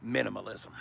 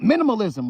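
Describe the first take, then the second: First: Minimalism muttered much softer and lower, under the breath; muttered aside. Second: Said in the usual way. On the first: Real, not acted. Dealer mocking the sparse dash to himself, muttering. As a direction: drop minimalism to a wry mumble.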